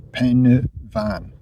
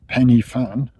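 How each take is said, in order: First: The middle is 'uh' and ends 'van'. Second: The middle sounds like 'ee' and ends 'fan'. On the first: The speaker calls it right. "the F is a V, so pen van" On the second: The speaker calls it wrong. "as people call it. It's not"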